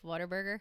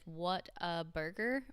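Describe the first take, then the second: First: The name is said fast, run together. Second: The name is said slowly, word by word.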